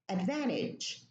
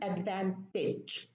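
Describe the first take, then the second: First: The T is dropped, American style. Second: The T is pronounced, British style.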